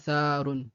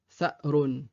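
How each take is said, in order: First: The first vowel is drawn out long, with no stop. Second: A short vowel is cut off by a glottal stop. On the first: The speaker calls it wrong. "et non pas" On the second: The speaker calls it right. "c'est un hamza avec une soukoun"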